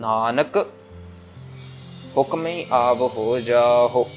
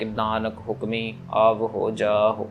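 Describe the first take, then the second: First: The pause comes after the word nanak. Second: The pause comes after the word hukmi. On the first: The speaker calls it right. "हमने नानक के ऊपर विश्राम लगाना है" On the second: The speaker calls it wrong. "हम हुक्मी पे विश्राम लगा लगा देते हैं ... ऐसे नहीं"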